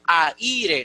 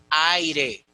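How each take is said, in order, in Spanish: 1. La a y la i están en sílabas separadas. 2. La a y la i se unen en una sola sílaba. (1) "No podemos decir aire" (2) "sí hay diptongo en ay"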